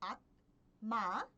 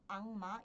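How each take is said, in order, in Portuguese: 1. A primeira sílaba termina em som de oclusiva. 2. A primeira sílaba termina em som nasal. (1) "Ao invés de pronunciar como" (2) "quando vocês pronunciam em uma velocidade contínua"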